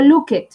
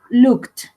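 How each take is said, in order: First: "looked" with the ed said as a full extra syllable, luk-ed; wrong looked. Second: "looked" said as one syllable ending in a t sound, lukt; the correct "looked", ed clipped to a t. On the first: Teacher shows students the wrong way, "looked" as luk-ed. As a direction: show the mistake, "looked" as two syllables. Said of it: "no digo looked". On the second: Teacher models the right way, "looked" ending in t. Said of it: "se va a pronunciar como si fuera una T". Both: Shown as a demonstration.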